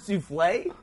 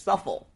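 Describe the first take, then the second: First: The word is pronounced with an 'oo' sound. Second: The word is pronounced with an 'uh' sound. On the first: The speaker calls it right. "He knew the word souffle" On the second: The speaker calls it wrong. "he read it as suffle"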